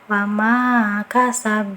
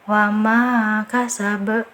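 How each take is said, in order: First: The final bounce is short. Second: The final bounce is drawn out. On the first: The speaker calls it right. "harusnya kan kita pantulkan" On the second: The speaker calls it wrong. "jangan dipanjangkan, jangan seperti ini ya"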